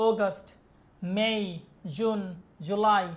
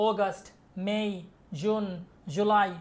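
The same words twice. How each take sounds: Both takes have the same delivery.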